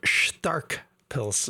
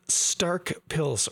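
First: It is pronounced the German way. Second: It is pronounced the plain English way.

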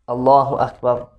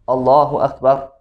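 The two takes are said the same way.

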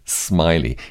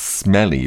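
First: The first vowel sounds like in 'smile'. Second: The first vowel sounds like in 'smell'. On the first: The speaker calls it right. "but you pronounce it Smiley" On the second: The speaker calls it wrong. "you would think it was pronounced Smelly"

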